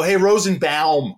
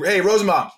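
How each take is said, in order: First: Rosenbaum slowed, ending drawn out as "bowm"; slow call, stretch the "bowm" in Rosenbaum; awkward BAUM ending. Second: Rosenbaum rolled off as "Rosenbomb"; quick call, Rosenbaum ending like "bomb"; easy BOMB ending. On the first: Guest mocks the proper name, drawn-out "bowm". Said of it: "Who wants to go". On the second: Guest shows the easy name, "bomb" ending. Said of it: "just comes off the tongue". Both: Shown as a demonstration.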